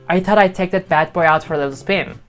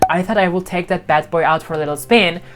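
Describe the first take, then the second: First: The two words are contracted into one syllable. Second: The two words are said fully and separately. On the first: The speaker calls it right. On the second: The speaker calls it wrong.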